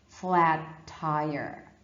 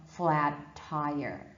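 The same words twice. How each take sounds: Both takes have the same delivery.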